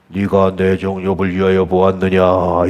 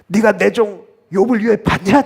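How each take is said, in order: First: It is said in a plain, formal tone. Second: It is said in a proud, boastful tone. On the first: The speaker calls it wrong. "이렇게 얘기하셨을까요?" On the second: The speaker calls it right. "자랑하면서"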